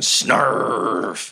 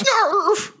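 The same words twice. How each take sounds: First: Long drawn-out growly snarf; lightly acted, slow creature bite; wolf's biting noise. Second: High squealed snarl; high creature yelp; goblin's attack noise. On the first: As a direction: stretch it slowly into a beast noise. Wolf biting back, acted. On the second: Acted. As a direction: squeal it like a small beast lunging. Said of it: "Goblin Junior goes".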